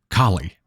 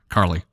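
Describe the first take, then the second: First: The name is said without an R sound. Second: The name is said with an R sound. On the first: The speaker calls it right. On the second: The speaker calls it wrong.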